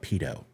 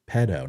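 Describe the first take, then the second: First: The first vowel is a long 'ee' sound. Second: The first vowel is a short 'eh' sound. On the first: The speaker calls it wrong. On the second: The speaker calls it right.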